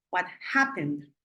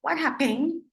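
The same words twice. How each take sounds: First: Happened stressed on its first syllable, HAP-pened. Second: Happened said wrongly with the second syllable punched high and loud; wrong stress, hap-PEN, pitched up and louder. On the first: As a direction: hit HAP in happened, let the ending drop. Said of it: "el acento está en la primera sílaba". ("happened" con el acento en la primera sílaba) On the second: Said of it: "no pongo la fuerza en pen". ("happened" con la fuerza en la última sílaba, agudo y fuerte) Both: Shown as a demonstration.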